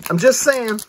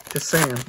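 First: JUST SAYING pitched higher and louder; emphatic repeat. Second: Said in the usual way. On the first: Real, not acted. Repeats himself with more force.

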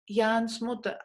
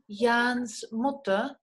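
First: Said in the usual way. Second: Jans Mutter spelled out very slowly, each sound drawn out; slow demo. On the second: Shown as a demonstration. Teacher slowly models the possessive for the class. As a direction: stretch out Jans Mutter so students catch the s. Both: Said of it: "Podemos decir en alemán".

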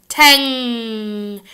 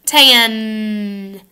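First: "Tang." ending on a long nasal NG at the back. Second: "Tan." ending on a front N, tongue tip up. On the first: Teacher modeling tang against tan, nasal NG ending. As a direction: let "Tang." ring through the nose. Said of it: "Now let's say tang". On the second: Teacher modeling tan for the class, clear front N. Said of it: "Everybody say tan". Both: Shown as a demonstration.

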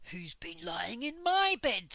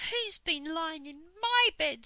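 First: Lightly growled bear voice, louder; growly Father Bear. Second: High, loud, indignant mother bear. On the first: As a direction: grumble it as a papa bear. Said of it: "in a growly voice". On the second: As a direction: complain loudly as Mother Bear. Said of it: "said Mother Bear". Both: A narrator's reading.

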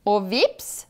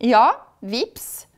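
First: VIPS lifted as a question. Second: Louder, confirming "vips". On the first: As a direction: ask with a rise on "vips". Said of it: "spør krokodillen". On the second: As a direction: answer firmly, VIPS as a statement. Witch confirms the crocodile's question. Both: A narrator's reading.

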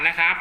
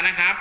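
The two takes are said the same way.

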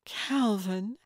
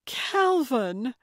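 First: Tentative questioning rise on the name; hesitant recognition. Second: High, joyful cry of the name; delighted greeting. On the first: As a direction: draw the name out as an uncertain question. Old friend recognising visitor at door. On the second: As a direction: greet a long-lost friend with delight. Delighted greeting, face broke into smile. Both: A narrator's reading.

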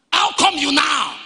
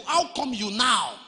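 First: Raised, higher preacher's quote; preached shout. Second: Said in the usual way. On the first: Retold or imitated. Preacher voicing the disciples questioning Jesus, preached shout.

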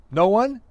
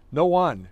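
First: "No one" rising high and louder as a question; puzzled question. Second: Said in the usual way. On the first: A narrator's reading. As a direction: echo "No one" back with a sharp questioning rise. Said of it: "he asked". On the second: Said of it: "she said".

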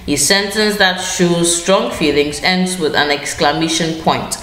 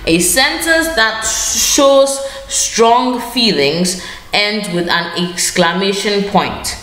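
First: Said in the usual way. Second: Stretched out, teacherly and deliberate; slow dictation. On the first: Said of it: "teacher repeats rule normally". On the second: Shown as a demonstration. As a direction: spell the rule out slowly for the class. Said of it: "teacher states rule slowly, dictating".

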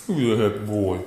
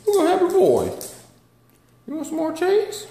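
First: Said in the usual way. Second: Much higher, louder cooing. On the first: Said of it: "repeated in pet voice". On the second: Real, not acted. Baby talk to the dog.

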